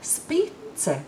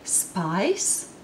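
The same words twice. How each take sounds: First: The letters are read with Latvian sound values. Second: The letters are read with English sound values. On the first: The speaker calls it right. "Latvians would read it spice" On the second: The speaker calls it wrong. "Would you say spice? Well, that's what I'm talking about. But it's not how Latvians would pronounce it"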